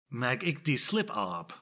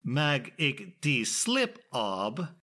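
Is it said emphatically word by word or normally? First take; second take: normal; emphatic. First: It is said normally and smoothly. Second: Each word is said with heavy emphasis.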